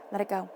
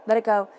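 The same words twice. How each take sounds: First: Said in the usual way. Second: Emphatic. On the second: Real, not acted. Reader urging the viewer to drop clutter, louder and firm. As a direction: Let it go, said louder and firmly. Repeating advice, second time stronger.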